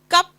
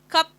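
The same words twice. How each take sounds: First: The k is said without a puff of air. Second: The k is said with a puff of air. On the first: "Indian English k, cup is okay" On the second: "K, cup is also okay"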